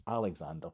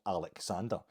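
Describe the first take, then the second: First: Said in the usual way. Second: "Alexander" split as Alec-sander; rejected pronunciation. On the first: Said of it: "So it's not Alexander". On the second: Shown as a demonstration. Explaining his name to listeners, "Alexander" as Alec-sander. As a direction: say "Alexander" with a separate Alec at the front. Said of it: "it's not Alexander, it's Alexander".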